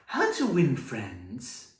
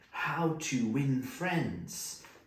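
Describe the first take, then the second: First: The voice rises at the end, like a question. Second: The voice falls at the end, like a statement. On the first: It asks how something is done. The speaker calls it wrong. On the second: It names a topic that is being taught. The speaker calls it right.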